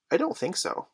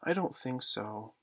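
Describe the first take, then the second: First: Put-on high-pitched little boy's answer; young twin. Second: Soft, slow, mildly mournful reply. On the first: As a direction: pipe up as a small twin, much higher. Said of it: "said the first twin". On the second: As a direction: answer with quiet, drawn-out regret. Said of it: "who said mournfully". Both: A narrator's reading.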